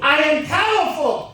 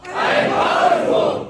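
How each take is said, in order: First: Booming motivational speech. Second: Slow, huge shouted affirmation; booming motivational speech. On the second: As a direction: roar the words back at full force. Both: Shown as a demonstration. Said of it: "repeat after me".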